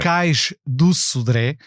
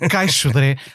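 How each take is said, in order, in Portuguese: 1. O nome é dito por inteiro, palavra a palavra. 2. O nome é dito todo junto, como uma só palavra. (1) "é cais do Sodré" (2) "como as pessoas chamam, caixodré, às tantas quase nem se percebe"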